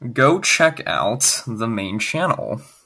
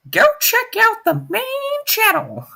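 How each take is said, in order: First: It is said in a very serious voice. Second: It is said casually, not seriously.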